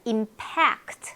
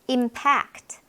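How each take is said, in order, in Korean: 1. 두 번째 음절에 강세가 있어요. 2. 첫 번째 음절에 강세가 있어요.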